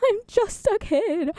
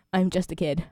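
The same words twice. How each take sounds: First: High-pitched, laughing and slow. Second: Said in the usual way. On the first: Real, not acted. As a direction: giggle through it playfully.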